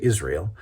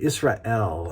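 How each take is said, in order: First: The final 'el' syllable is said plainly. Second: The final 'el' syllable is clearly emphasized. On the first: "we'll say Israel" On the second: "I want to emphasize the L"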